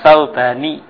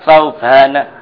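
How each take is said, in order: First: The name ends with an 'i' vowel. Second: The name ends with an 'a' vowel. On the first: The speaker calls it wrong. "Kenapa enggak boleh dibaca Saubani? ... Sauban tidak boleh dikasroh" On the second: The speaker calls it right. "Kok dibaca Saubana?"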